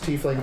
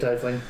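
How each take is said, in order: First: The first syllable sounds like 'tea'. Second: The first syllable sounds like 'tie'. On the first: This follows the word's Germanic origin. "if you're saying it correct, it's tiefling" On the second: This is the speaker's habitual choice because it sounds better. "I say tiefling"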